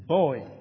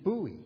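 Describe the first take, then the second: First: It is said as one syllable, like boy. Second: It is said ending in an ee sound. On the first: "is boy in English English" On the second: "in American English it's buoy"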